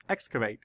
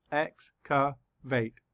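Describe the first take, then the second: First: Said in the usual way. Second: Slow, split into syllables, EX-ca-vate. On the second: Shown as a demonstration. Teacher counting syllables for the class, slow and split. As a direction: tap out each syllable of Excavate slowly. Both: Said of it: "Let's count the syllables".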